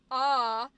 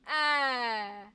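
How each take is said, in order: First: "ah" held open, made low in the mouth; low ah vowel. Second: "ah" shifted forward into the cheeks, held loud; high-placed vowel. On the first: Voice teacher contrasting vowel placements, low open "ah". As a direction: hold "ah" down and open. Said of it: "like, your high pitched one". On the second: Voice teacher contrasting placements, high cheek "ah". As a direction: push "ah" up toward a bright "a" as in cat. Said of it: "much higher in your cheeks". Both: Shown as a demonstration.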